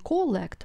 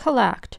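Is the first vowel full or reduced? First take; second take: full; reduced. First: The first vowel is a full clear o. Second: The first vowel is a reduced schwa. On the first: The speaker calls it wrong. "не collect будете читать" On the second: The speaker calls it right. "вот это вот зажевывается"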